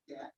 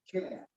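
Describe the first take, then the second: First: "cat" clipped very short. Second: "cat" with the vowel drawn out long. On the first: Teacher contrasting a short cat with a long one. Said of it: "very short". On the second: Teacher contrasting a long cat with a short one. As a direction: stretch the a in "cat". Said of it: "very long". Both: Shown as a demonstration.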